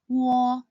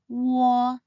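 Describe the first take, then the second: First: The syllable is said quickly as one smooth sound. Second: The syllable is said slowly, gliding between vowels. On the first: "When said quickly" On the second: "start by sounding the u final first, and then translate into the o final"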